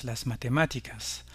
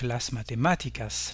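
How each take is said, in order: First: "las matemáticas" again, stress on "má", falling at the end; stress on "má" repeated. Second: "las matemáticas" with the stress on "má", the third-last syllable. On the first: Teacher repeating for learners, "las matemáticas" stressed on "má". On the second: Teacher modelling for learners, "las matemáticas" stressed on "má". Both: Shown as a demonstration. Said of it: "l'accent aigu sur le A".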